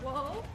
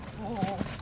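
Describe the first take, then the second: First: The word is said in a lighter, ordinary voice. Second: The word is said in a deeper voice. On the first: The speaker calls it wrong. "Not like that though" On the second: The speaker calls it right. "you're going to say it kind of deeper"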